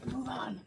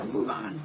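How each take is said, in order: First: Said in the usual way. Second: Drops way low for a gruff move on; comic low growl of a command; mock deep voice. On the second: Shown as a demonstration. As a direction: say it in a much lower voice. Repeats move on, deep second take.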